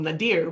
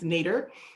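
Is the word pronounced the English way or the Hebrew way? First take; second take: Hebrew; English. First: The word is pronounced like a Hebrew word. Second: The word is pronounced like an English word. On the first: The speaker calls it wrong. "I always think of it as a Hebrew word called Nadir" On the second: The speaker calls it right. "but it's, it's Nadir"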